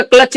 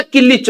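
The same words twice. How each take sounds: First: Said in the usual way. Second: किलिच drawn out slowly as "ki-llich" for clutch; local pronunciation. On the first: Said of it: "bike का क्लच नहीं होता". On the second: Shown as a demonstration. Joking that back home the clutch is called किलिच, said slowly as "ki-lich". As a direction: stretch out किलिच, "ki-lich", with a vowel after the k. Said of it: "किलिच होता है".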